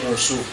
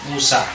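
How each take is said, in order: First: The name ends in a u sound. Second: The name ends in a long a. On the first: The speaker calls it wrong. "tidak boleh musuh" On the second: The speaker calls it right. "tetap dia Musa"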